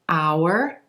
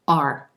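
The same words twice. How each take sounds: First: It is said fully, rhyming with hour. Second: It is said reduced, with a shorter vowel. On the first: "They sound the same when I pronounce them that way" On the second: "in connected speech is going to reduce"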